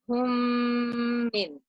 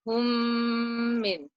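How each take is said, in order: First: The m sounds merge, nasalized and held long. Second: The same.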